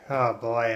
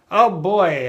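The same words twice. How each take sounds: First: It sounds weary and low in energy. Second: It sounds mocking and insincere. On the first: The speaker is worn out. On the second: The speaker means the opposite of the words.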